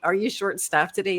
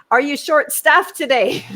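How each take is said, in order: First: Said in the usual way. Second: High, loud, pointed question; loud pointed question again. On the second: Retold or imitated. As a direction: call it out for everyone to hear. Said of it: "Like this, said it again".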